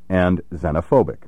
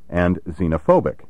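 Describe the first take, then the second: First: The first vowel is a short E. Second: The first vowel is a long E. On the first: The speaker calls it right. "Pronounce these words with a short E" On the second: The speaker calls it wrong. "with a long E"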